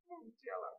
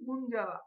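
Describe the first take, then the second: First: The name begins with a 'mong' sound. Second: The name begins with a 'moon' sound. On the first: The speaker calls it right. "না আসলে অ্যাকচুয়ালি এটা ঠিক মুনজালা হবে না" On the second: The speaker calls it wrong. "আমাদের বাংলাদেশিতে মনে হয় যে ওরা হয়তো বলতেছে মুনজালা"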